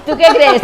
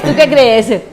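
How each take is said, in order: First: Asked through a real laugh; laughing question. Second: Said in the usual way. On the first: Real, not acted. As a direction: laugh while you ask it back. Laughing as guest teases her.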